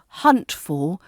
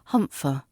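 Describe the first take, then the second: First: The word 'for' is said in full. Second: The word 'for' is weak and reduced.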